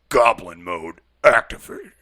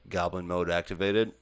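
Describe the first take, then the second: First: It is said in a put-on character voice. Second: It is said in a plain, normal voice. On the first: The speaker calls it right. "It's more like" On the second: The speaker calls it wrong. "you said that wrong"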